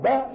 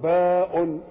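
First: "باء" said as the bare sound "ba", no ending; letter sound. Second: "باء" drawn out as the full name "baa-un"; letter name. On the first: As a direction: say "باء" short, as just "ba". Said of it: "باء اللي بننطقها". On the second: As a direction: stretch "باء" and sound its "-un" ending. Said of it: "ما اسمها؟". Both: Shown as a demonstration.

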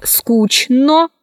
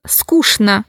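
First: Скучно cut as скуч-но, full final О; spelling pronunciation. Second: Скучно said as скушна; CHN as SHN. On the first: Teacher showing how скучно is written, spelled-out reading. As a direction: keep a clear Ч in скучно. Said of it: "Пишется". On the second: Teacher showing how скучно is pronounced, SH sound. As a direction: use Ш for Ч in скучно. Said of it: "произносится". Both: Shown as a demonstration.

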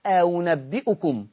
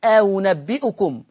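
First: أنبئكم said slowly, the hamza eased toward و; eased hamza demo. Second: أنبئكم said slowly again, hamza between hamza and و; eased hamza repeated. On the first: Teacher demonstrates the eased hamza to students, slowly. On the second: Teacher repeats the word for students, slow and careful. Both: Shown as a demonstration. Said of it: "زي أول آل عمران لورش".

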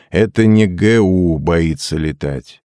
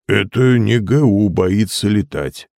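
First: Slow, measured dictation; feed the line slowly for repeating; dictating. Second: Slow echo in another character's voice; obedient repetition. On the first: Hypnotist giving John words to repeat, slow dictation. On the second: John repeating after the hypnotist, slow echo. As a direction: echo the line slowly, as if entranced. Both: A narrator's reading.

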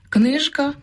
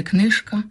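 First: Книжка keeps a voiced ж; Книжка with a buzzing ж; voiced ж inside. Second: Книжка said as книшка; книжка pronounced книшка, the wrong form; devoiced ж. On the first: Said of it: "а не книжка". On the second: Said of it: "а не". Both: Shown as a demonstration.

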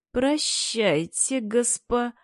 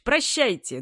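First: Slow, rising прощайте, cut off; прощайте slowed and lifted, broken off; forced smile goodbye. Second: Sly ominous farewell. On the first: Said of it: "подобие улыбки". (натянутая улыбка) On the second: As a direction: say прощайте with a falling, knowing tone. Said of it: "недобрыми, сдержанными". (недоброе прощайте) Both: A narrator's reading.

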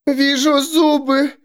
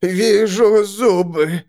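First: High, slow, eerie voice; female seer voice. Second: Slow, eerie voice, less high; male seer voice. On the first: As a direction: intone it as the woman seer. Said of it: "сказала женщина". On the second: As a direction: intone it as the man seer. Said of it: "сказал мужчина". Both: A narrator's reading.

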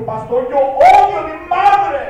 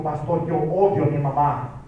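First: Louder, forceful repeat of the confession. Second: Said in the usual way. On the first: Retold or imitated. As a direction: say it again, insisting. Boy repeats confession, pastor asked "¿qué?. (repetido más fuerte, con insistencia)

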